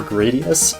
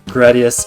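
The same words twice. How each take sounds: First: The name is said in a different, odd way. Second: The name is said in a plain, natural way. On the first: The speaker calls it wrong. "that weird way I was saying it before" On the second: The speaker calls it right. "the proper pronunciation of Gradius is the way I'm saying it right now"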